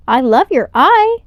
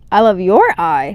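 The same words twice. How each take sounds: First: High, bright alien greeting; an eager alien, voiced higher. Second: Said in the usual way. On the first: A narrator's reading. Alien greets Elio warmly.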